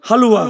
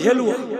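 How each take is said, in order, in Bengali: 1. প্রথম স্বরধ্বনিটি একটি খোলা 'a' ধ্বনি। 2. প্রথম স্বরধ্বনিটি একটি 'e' ধ্বনি। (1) "আজকে জানলাম কি বলে" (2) "আমরা কিন্তু বলি হেলুয়া"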